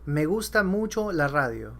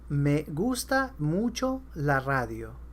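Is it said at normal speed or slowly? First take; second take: normal speed; slowly. First: It is said at normal speed. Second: It is said slowly.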